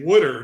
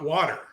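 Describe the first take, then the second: First: It is said with a Philadelphia accent. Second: It is said with a standard American accent. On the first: This is how locals in that city say it. "in Philadelphia, you say wooder" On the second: This is how it is said elsewhere. "not water"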